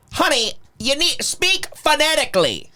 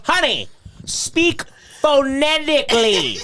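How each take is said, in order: First: Imitating Stan, higher and patronising; a higher mock scolding of the waitress; condescending quote. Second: Slow, higher, laughing through the line; laughing quote. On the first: Stan lecturing the waitress, higher and patronising. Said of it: "He goes". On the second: Retold or imitated. Retelling Stan's line to friends, laughing and slow. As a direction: repeat the line slowly while cracking up. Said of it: "he goes, he goes".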